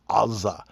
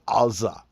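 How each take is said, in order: First: It begins with a throaty back-of-throat sound. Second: The same.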